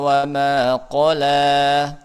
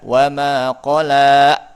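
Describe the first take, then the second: First: It is read plainly without extra pressure. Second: It is read with an extra pressed emphasis. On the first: The speaker calls it right. "biasa saja itu karena nggak ada hamzah" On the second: The speaker calls it wrong.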